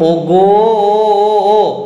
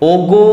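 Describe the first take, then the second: First: The final vowel is stretched out long. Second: The final vowel is short and normal. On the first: "এই যে ওটা টান দিচ্ছি আমি" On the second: "ওগোটা ঠিক ছিল"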